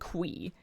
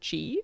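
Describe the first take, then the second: First: The name begins with a 'kw' sound. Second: The name begins with a 'ch' sound. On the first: The speaker calls it right. "If it's Quee, where is the U or the W" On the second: The speaker calls it wrong. "Was I the only one who thought it was Chi?"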